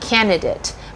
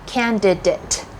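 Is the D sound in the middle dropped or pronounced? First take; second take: dropped; pronounced. First: The middle D sound is dropped. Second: The middle D sound is clearly pronounced. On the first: The speaker calls it wrong. "the biggest misconception is that you want to say candidate" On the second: The speaker calls it right. "the proper word is actually candidate. That has a D"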